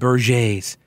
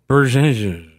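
First: The name ends with a French-sounding pronunciation. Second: The name ends with a plain English pronunciation. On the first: The speaker calls it wrong. "I've been apparently mispronunciating it all this time. I've been calling him Berges. ... it deserved a kind of Frenchified inflection at the end" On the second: The speaker calls it right. "That's probably how he does pronounce it"

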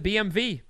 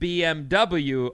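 First: The last letter is said as 'vee'. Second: The last letter is said as 'double-u'. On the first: The speaker calls it right. "They pronounce it BMV" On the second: The speaker calls it wrong. "we've been saying BMW wrong all along. They don't pronounce it BMW over there"

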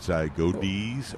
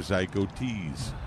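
First: The middle consonant is a D sound. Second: The middle consonant is a T sound. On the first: "if it's a D" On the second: "or a T"

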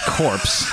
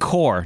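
First: The word ends with a 'ps' sound. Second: The word ends in an r sound, no 'ps'. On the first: The speaker calls it wrong. "not the corpse" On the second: The speaker calls it right. "The Marine Corps"

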